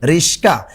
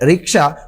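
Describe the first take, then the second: First: The middle cluster is s before k. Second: The middle cluster is k before s. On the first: "হয়ে গেল কি রিস্কা" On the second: "রিক্সা কখনো হয়ে গেল"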